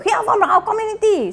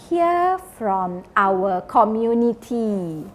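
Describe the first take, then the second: First: It is said loudly in a high pitch. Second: It is said slowly and calmly. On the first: The speaker calls it wrong. "you don't go" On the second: The speaker calls it right. "Don't shout. Say it slowly"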